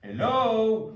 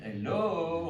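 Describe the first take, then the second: First: Loud, high French take on a Belgian hello; a Frenchman hamming up Belgian; mock Belgian accent. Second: Said in the usual way. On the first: Frenchman mocking Belgians, loud caricatured Belgian hello. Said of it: "il essaie d'imiter l'accent belge". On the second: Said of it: "on parle pas tous comme ça".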